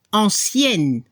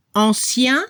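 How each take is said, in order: First: ANCIENNE with a sounded final n; feminine French ancienne. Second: ANCIEN with nasal ending, silent n; masculine French ancien. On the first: French teacher contrasting the feminine, ANCIENNE with audible n. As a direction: let the n close ANCIENNE clearly. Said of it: "Se escucha la N al final". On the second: French teacher contrasting the masculine, ANCIEN without a sounded n. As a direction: end ANCIEN on the nasal vowel, pitched as a first item. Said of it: "para el masculino". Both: Shown as a demonstration.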